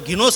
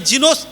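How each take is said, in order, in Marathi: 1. हा शब्द कठोर G आवाजाने सुरू होतो. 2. हा शब्द मऊ J आवाजाने सुरू होतो.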